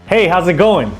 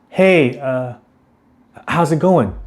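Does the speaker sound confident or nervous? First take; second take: confident; nervous. First: The greeting sounds steady and self-assured. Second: The greeting sounds hesitant, with a filler. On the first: "a confident" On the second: "a nervous"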